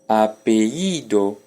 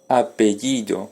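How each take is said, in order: First: The palatal consonant is dropped between vowels. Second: The palatal consonant is clearly pronounced. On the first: This is a regional dialect form. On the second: This is the general form.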